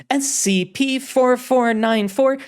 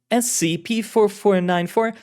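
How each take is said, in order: First: Crisp authoritative designation, slowed; commanding director. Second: Unsure agent reading the code; bewildered agent. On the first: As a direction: read the code as the boss. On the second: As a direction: say it hesitantly, puzzled. Carlotta reads designation. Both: Acted.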